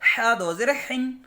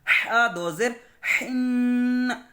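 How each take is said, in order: First: The final n is released abruptly without nasal hum. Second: The final n is held with a light nasal hum. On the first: The speaker calls it wrong. "ऐसे नहीं पढ़ना। ... फौरी नहीं छोड़ देना" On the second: The speaker calls it right. "उस तो थोड़ा हल्का सा गुन्ना करना है। जैसे कि"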